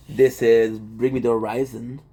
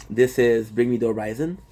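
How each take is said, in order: Both takes have the same delivery.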